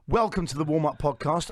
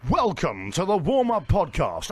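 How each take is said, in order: First: It sounds like his own everyday voice. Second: It sounds like a radio voiceover announcer.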